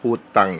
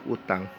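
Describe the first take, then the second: First: The word starts with an h sound. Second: The word starts with a vowel sound. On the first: This is the correct standard form. "bahasa Indonesia yang benar tuh hutang" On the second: This is the everyday colloquial form. "pakai bahasa yang sehari-hari aja"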